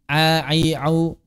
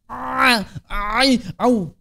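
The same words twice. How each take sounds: First: The sounds are said easily, without extra force. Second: The sounds are pushed out with strained, forceful effort. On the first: An expert says it with no extra effort. "ya huruf ain biasa aja" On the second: A beginner must work hard to reach the correct sound. "Tapi orang yang baru belajar"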